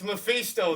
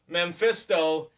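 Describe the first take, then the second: First: No m sound comes before the p. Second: An m sound comes before the p. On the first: The speaker calls it right. "There's no M" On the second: The speaker calls it wrong. "I've been corrected a few times"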